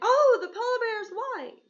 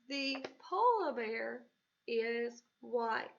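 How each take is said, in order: First: It is said with excitement. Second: It is said as a flat statement.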